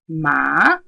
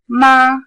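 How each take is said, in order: First: It is said with the rising second tone. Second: It is said with the high level first tone. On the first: It means hemp. "if I said ma, I now mean hemp" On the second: It means mother. "The first tone"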